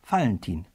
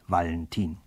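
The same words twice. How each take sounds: First: The name begins with an F sound. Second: The name begins with a V sound. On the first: The speaker calls it right. "Ja, Valentin" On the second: The speaker calls it wrong. "nicht Valentin"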